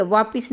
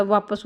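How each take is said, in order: First: वापिस said with a clear short i, as the wrong form; वापिस spoken with an i in the second syllable, marked as wrong; वापिस with an i vowel, shown as the incorrect form; wrong form vapis. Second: वापस said with a short a in the second syllable, as the correct form; वापस spoken with an a vowel, given as the right form; वापस with the a vowel, shown as the correct form; correct form vapas. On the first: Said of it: "वापिस नहीं होता". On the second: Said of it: "वापस होता है". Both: Shown as a demonstration.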